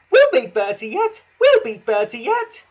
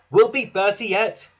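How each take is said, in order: First: High, loud squeaky echo; excited high-pitched chorus; echoing carriages. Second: Louder, higher confident rallying; rally the engine with resolve; lightly voiced encouraging driver. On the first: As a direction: parrot it back in a high voice. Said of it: "echoed Annie and Clarabel". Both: A narrator's reading.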